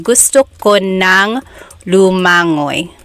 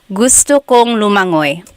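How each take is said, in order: First: The middle is split into 'ko nang'. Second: The middle is the short form 'kong'. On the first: "or you could say gusto ko nang lumangoy" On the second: "you could say that"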